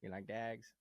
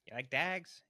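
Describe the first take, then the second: First: Lightly imitated Pikey accent, "dags" for dogs; a hint of Mickey's Traveller accent; Irish Traveller accent. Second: Put-on Brad Pitt's Pikey accent, "dags" for dogs; mock Irish Traveller drawl on "dags".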